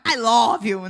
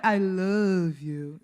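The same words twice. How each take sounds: First: Brisk Bahian-accented English. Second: Slow, low American-accented English; foreign accent. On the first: Contrasting with the foreign version, Bahian accent. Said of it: "E o sotaque baiano". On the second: Demonstrating the foreigner's version, American accent. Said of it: "O sotaque estrangeiro é". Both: Shown as a demonstration.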